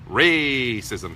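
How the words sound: The word is said in a mocking, ironic tone. The speaker calls it right. "Racism has to be said that way to convey irony"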